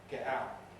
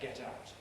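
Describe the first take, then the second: First: Both t sounds are glottal stops. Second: Both t sounds are full, clear t's. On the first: A Londoner would say it. "make both of them glottal" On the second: This is the speaker's own careful way. "in my English I can't use glottal stops at all there"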